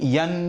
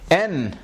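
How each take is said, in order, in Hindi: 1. यह स्वर से पहले य की ध्वनि से शुरू होता है। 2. यह सीधे स्वर से शुरू होता है, इसमें य नहीं है। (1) "बिगड़ा हुआ प्रोनाउंसिएशन है" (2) "इसमें भी वही मुआमला है"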